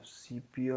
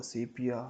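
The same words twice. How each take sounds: First: "sepia" said SEE-pia; first alternative pronunciation. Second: "sepia" said SEH-pia; second alternative pronunciation. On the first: Coder offering one way of saying a filter name, "sepia" as SEE-pia. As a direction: say "sepia" with a long ee in the first syllable. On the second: Coder unsure how a filter name is pronounced, "sepia" as SEH-pia. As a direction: say "sepia" with an eh in the first syllable. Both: Shown as a demonstration. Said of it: "however it is pronounced".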